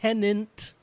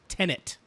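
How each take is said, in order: First: The second syllable sounds like 'nant'. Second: The second syllable sounds like 'net'. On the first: The speaker calls it wrong. "it is not tenant" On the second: The speaker calls it right. "It is tenet"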